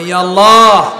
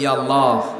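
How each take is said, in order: First: It is said the most loudly. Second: It is said loudly.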